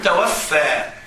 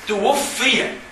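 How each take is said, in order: First: It begins with 'ta' and ends in a long 'a'. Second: It begins with 'tu' and ends in a short 'i'. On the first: Someone took the soul. The speaker calls it wrong. "ولا تقل توفى" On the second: The person died. The speaker calls it right. "قل توفي"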